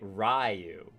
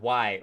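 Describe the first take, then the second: First: The name starts with an R sound. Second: The name starts with a W sound. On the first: The speaker calls it right. "Ryu makes a little bit more sense" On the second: The speaker calls it wrong. "not why"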